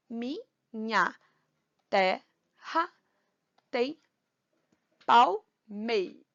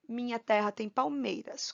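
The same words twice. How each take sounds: First: "Minha terra tem palmeiras" as mi-nha, te-rra, tem, pal-mei, with pauses; syllable by syllable. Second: Said in the usual way. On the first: Shown as a demonstration. Teacher dividing verse for counting, "Minha terra tem palmeiras" syllable by syllable. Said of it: "separar silabicamente". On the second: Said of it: "Como é que a gente vai separar".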